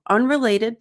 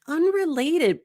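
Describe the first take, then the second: First: The word is said quickly and flatly. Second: The word is drawn out slowly. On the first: It sounds mechanical. The speaker calls it wrong. "that sounds robotic" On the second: It signals a polite change of subject. The speaker calls it right. "elongate unrelated ... saying this slowly"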